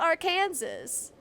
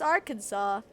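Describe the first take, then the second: First: The ending rhymes with Kansas. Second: The ending sounds like saw. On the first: The speaker calls it wrong. "should look and sound like Kansas, but it's not Arkansas" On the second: The speaker calls it right. "It's Arkansas for no good reason"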